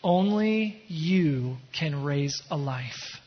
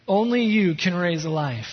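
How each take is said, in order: First: Drawn out slowly, weight on Only; slow quoted lyric. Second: Said in the usual way. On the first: Shown as a demonstration. Pastor dwelling on the lyric, slow and deliberate. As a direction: linger on "Only", each word slow. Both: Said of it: "There was a line in the song I heard".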